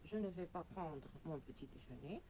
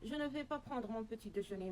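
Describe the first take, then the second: First: The sentence is spoken slowly. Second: The sentence is spoken very fast. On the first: "je vais la dire doucement" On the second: "je vais la prononcer très rapidement"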